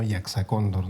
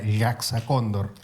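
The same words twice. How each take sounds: First: It uses only ordinary Spanish sounds. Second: It uses a sound that Spanish does not have. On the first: "para los entendidos en castellano" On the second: "hay un sonido que no tenemos en castellano"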